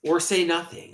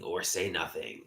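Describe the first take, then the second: First: Said in the usual way. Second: Much softer, lower echo. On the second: Real, not acted. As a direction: let it fall away. Repeated, second fades.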